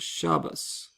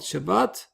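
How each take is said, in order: First: The word ends with an s sound. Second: The word ends with a t sound.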